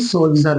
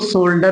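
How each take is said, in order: First: The middle consonant is a j sound. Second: The middle consonant is a plain d sound. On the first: The speaker calls it right. "बल्कि सोल्जर बोलेंगे" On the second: The speaker calls it wrong. "नहीं"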